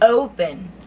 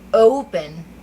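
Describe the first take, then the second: First: The first vowel glides from 'o' to 'u'. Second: The first vowel glides from 'o' to 'u'.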